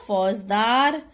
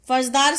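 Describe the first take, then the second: First: फौजदार with a long औ; फौजदार lower, sounded out as "fauz-daar"; corrected word. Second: फौजदार mispronounced as "faz-daar"; quick "fa" at the start of फौजदार; misspelt word. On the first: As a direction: draw out "fau" in फौजदार. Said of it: "क्या होता है". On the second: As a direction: shorten फौजदार's औ to a short "a". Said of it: "शब्द नहीं होता है". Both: Shown as a demonstration.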